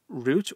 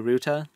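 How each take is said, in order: First: The word ends on a consonant, like root. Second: The word ends with an added vowel sound.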